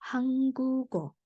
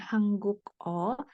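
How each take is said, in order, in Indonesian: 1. Konsonan terakhir langsung menyambung ke vokal. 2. Konsonan terakhir dipotong sebelum vokal. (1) "langsung disambung" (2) "bukan hangguk O"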